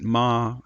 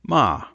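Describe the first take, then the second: First: The pitch stays level and steady. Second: The pitch starts high and falls. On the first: "I'm keeping it level" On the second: "it's a high falling tone"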